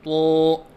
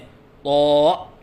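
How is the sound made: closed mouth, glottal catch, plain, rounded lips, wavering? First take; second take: closed mouth; glottal catch. First: The sound comes out with the mouth closed. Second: The sound has a glottal catch in it. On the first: "मुंह बंद करके पढ़ना" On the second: "हमज़ा के साथ पढ़ना"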